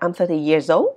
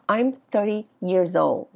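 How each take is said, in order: First: The voice rises at the end. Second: The voice falls at the end. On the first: The speaker calls it wrong. "Hay là nó là I'm 30 years old? Không" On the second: The speaker calls it right. "nó sẽ là ... thì nó sẽ đi xuống"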